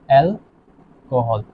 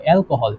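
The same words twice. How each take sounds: First: alcohol very slowly, split into অ্যাল and kohl; drawn-out syllables. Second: Said in the usual way. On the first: Shown as a demonstration. Teacher spelling out the compound's name, drawn-out syllables. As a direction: stretch out alcohol with a gap inside, lower and trailing.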